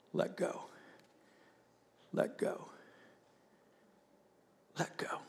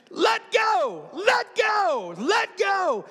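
First: Hushed whisper with long pauses; God's gentle whisper. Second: Very high, loud drawn-out shout; instructor's shouted order. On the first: God to a believer at the brink, hushed whisper. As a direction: whisper it softly, letting each one settle. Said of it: "I hear him say". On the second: Instructor to the clinging skydiver, acted shouted order. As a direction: yell it like an impatient command over wind. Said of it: "instructor is just staring at me going". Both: Retold or imitated.

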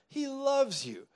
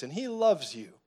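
First: "He loves you" sung up high; stress on loves. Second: Said in the usual way. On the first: Shown as a demonstration. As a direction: lean tenderly on "loves".

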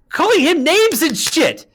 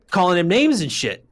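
First: High, loud and drawn-out indignation; outraged shout. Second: Said in the usual way. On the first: Real, not acted. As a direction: yell it slowly in sheer outrage. Repeats it in outrage.

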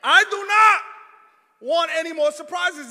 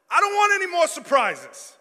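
First: Slow, loud stress on "I do not"; emphatic refusal. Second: Emphatic plea, falling on SURPRISES; firm plea. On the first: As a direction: punch out "I do not" word by word, louder. Insists to wife, publicly. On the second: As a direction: insist on "I don't want any more surprises", louder. Pleading with wife over surprises. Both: Retold or imitated.

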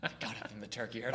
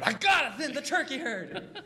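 First: Softer, lower Nicolas Cage take; quiet, brooding Cage build-up; Nicolas Cage impression. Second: High, slow, cracking Cage outburst; Nicolas Cage impression. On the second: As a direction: suddenly explode like Nicolas Cage. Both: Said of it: "Terrible Nicolas Cage impression".

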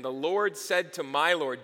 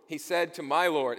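First: Said in the usual way. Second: "my" pressed as the key word in "He said to my Lord"; correcting himself by stressing "my". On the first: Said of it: "David is calling Jesus the Lord". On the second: Shown as a demonstration. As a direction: lean on "my" in "my Lord". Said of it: "David is calling Jesus my Lord".

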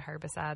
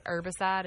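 First: Said in the usual way. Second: HERBICIDE with no H, ER-bicide; silent H. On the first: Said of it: "instead of herbicide". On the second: Shown as a demonstration. Co-host showing what friends hear, HERBICIDE said without its H. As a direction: drop the H from HERBICIDE. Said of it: "they think I say".

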